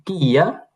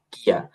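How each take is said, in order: First: "কিয়া" stretched as ki-ya, rising; unmerged syllables. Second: "কিয়া" as one short kya; merged into one syllable. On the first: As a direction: lead learners through both parts of "কিয়া". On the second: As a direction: clip "কিয়া" into a single beat. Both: Shown as a demonstration. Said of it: "একবার আমার সাথে".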